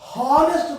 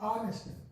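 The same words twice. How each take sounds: First: The word starts with an h sound. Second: The word starts with a vowel sound. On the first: The speaker calls it wrong. "we don't say honest person" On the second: The speaker calls it right. "We have to pronounce ah, honest"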